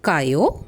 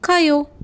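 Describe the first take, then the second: First: It is said as a question. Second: It is said in a plain, neutral way. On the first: Are you going? "கேள்வி கேட்கும்போது" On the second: I am going. "சாதாரணமாக"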